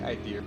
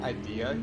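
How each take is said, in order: First: The word ends with an added R sound. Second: The word ends in a plain vowel. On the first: "you always say idea. Like you add an R to it" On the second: "instead of saying idea"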